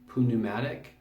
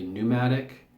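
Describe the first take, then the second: First: The first P is sounded before the N. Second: The first P is silent before the N. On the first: This is the original Greek way. "the Greeks pronounced this pneumatic ... they actually pronounce the P" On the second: This is the usual modern way. "whereas we would probably say pneumatic"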